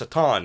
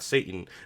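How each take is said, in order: First: It is said the original Hebrew way. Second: It is said the usual English way. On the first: The speaker calls it right. "they pronounce certain names actually correctly" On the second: The speaker calls it wrong.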